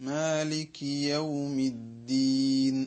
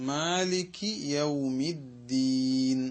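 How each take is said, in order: Both takes have the same delivery.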